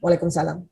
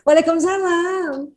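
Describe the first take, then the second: First: It is said in a stern, authoritative tone. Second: It is said in a sweet, soft tone.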